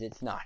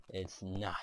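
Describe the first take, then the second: First: Said in the usual way. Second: Breathy whispered repeat, no voice. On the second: Shown as a demonstration. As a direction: whisper it to yourself. Whispered repeat of plain line.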